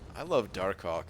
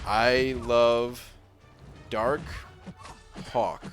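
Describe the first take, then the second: First: The phrase is said at a quick pace. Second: The phrase is said at a slower pace. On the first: The speaker calls it wrong. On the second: The speaker calls it right.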